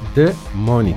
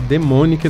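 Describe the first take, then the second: First: The name is said split into separate parts. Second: The name is said as one joined word. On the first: The speaker calls it right. "é Demonic. É separado" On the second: The speaker calls it wrong. "não é Demonic não"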